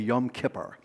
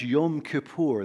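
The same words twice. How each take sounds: First: It is said with the everyday vernacular pronunciation. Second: It is said with the Hebrew pronunciation. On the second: "it's pronounced"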